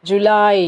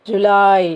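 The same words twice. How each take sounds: Both takes have the same delivery.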